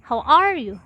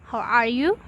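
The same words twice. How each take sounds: First: "How are you?" with a falling tune; falling intonation. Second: "How are you?" rising on YOU; rising intonation. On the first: Teacher demonstrating intonation, "How are you?" with falling end. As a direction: stress ARE in "How are you?", then fall. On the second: Teacher demonstrating intonation, "How are you?" with rising end. Demo of falling versus rising tune. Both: Shown as a demonstration.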